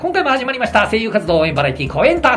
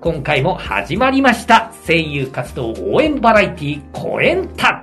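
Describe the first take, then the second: First: The phrase is spoken at a fast, practiced pace. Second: The phrase is spoken at a slow, deliberate pace. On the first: The speaker is used to saying it. "慣れてるから" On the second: This is how to practice it. "これくらいのでもスピードで練習しないと"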